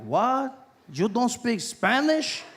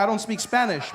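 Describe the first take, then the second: First: Put-on higher, drawn-out accented disbelief. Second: Said in the usual way. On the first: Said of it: "Guy was like".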